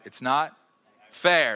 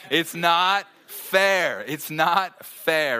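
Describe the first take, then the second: First: Put-on a child's sulky complaint, fair louder; whiny little girl. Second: Very slow, higher, louder drawn-out whine; whining little girl. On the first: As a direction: whine it like a sulking little girl. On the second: Retold or imitated. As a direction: stretch every word like a sulking child. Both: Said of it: "Someone was that little girl".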